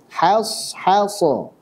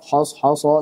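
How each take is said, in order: First: The h sound is plain, with an open a vowel. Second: The h sound is thick, with a rounded o vowel. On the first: The speaker calls it right. "Ha-nya biasa" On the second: The speaker calls it wrong. "Jangan juga jadi tebal"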